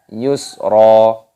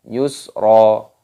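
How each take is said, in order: No difference in how they are said.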